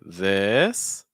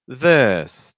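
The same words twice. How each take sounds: First: The pitch rises at the end. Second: The pitch falls at the end. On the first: The thought is unfinished or it is a yes-no question. "that's rising intonation" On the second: It is a statement or an information question. "that's falling intonation"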